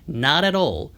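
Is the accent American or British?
American. It is said with an American accent. "미국식으로 발음할 때도"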